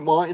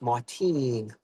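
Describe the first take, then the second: First: The name ends with a short 'tin' sound. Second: The name ends with a long 'teen' sound. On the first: The speaker calls it wrong. "it's not Martin" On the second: The speaker calls it right. "it's Martine"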